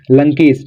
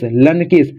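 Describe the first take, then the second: First: Said in the usual way. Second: लनकेश said as two parts, लन then केश; split syllables. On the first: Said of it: "लंकेश कैसे लिखेंगे". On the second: Shown as a demonstration. Teacher to students, sounding out the name syllable by syllable. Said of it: "पहले ला आ रहा है".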